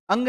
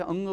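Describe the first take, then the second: First: अंग with a heavy, stressed ग; अंग, ग पर ज़ोर देकर; wrong ang. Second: अंग with a soft ग from the throat, as in गंगा; अंग, ग को हल्के से छोड़ो; correct ang. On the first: (ग दबाकर गलत अंग) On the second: (गंगा वाला नरम अंग) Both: Shown as a demonstration. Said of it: "ग पे जोर नहीं लगाना".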